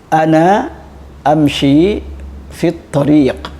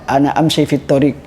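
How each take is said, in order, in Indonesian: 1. Vokal panjang dipanjangkan. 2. Vokal panjang dipendekkan. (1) "Contoh ya" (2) "jangan uh, dibiarkan santri mengatakan"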